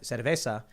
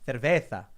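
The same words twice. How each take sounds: First: The z is said as a plain s sound. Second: The z is said with a lisped th sound. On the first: The speaker calls it wrong. "I went to Madrid and I said cerveza" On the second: The speaker calls it right. "no, no, no, cerveza"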